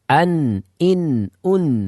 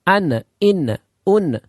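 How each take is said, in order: First: The final n sound stops short. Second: The final n sound bounces back. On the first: "Nggak boleh" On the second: "terjadinya pantulan ... Enggak boleh"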